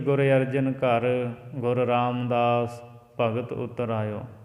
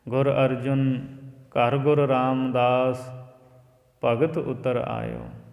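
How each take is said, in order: First: 'Ghar' is joined to 'Arjun', pausing after it. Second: There is a pause before 'ghar', after 'Arjun'.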